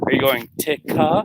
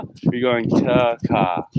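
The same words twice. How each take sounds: First: "ticka" lifted higher with a rising question; spring up on "ticka"; stress on ticka. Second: Slow, falling "going taka"; stress on going. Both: Shown as a demonstration.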